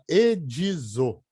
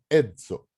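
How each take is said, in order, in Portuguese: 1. Uma vogal extra i separa o D e o Z. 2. O D e o Z são unidos, sem vogal nenhuma. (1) "A gente não fala edizo, não põe o i aqui no meio do D e do Z" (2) "Fala edzo"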